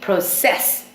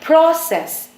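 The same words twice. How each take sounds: First: The stress is on the second syllable. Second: The stress is on the first syllable. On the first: The word is used as a verb. "If it's a verb, then we would say process. We would always stress the second part" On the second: The word is used as a noun. "you stress the first part. So we would say process if it's a noun"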